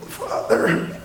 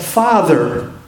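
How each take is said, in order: First: It is said in a weak, faint voice. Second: It is said in a loud, strong voice. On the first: He is defeated and can barely speak. The speaker calls it wrong. "they make you really weak" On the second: He is not diminished or overcome. The speaker calls it right. "Loud voice"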